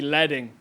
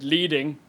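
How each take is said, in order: First: The first vowel is short, as in 'bed'. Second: The first vowel is long, as in 'bead'. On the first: The speaker calls it right. "it should actually be leading" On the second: The speaker calls it wrong. "I say the word leading"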